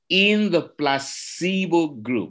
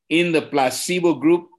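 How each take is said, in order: First: It is said slowly and deliberately. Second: It is said at normal speed.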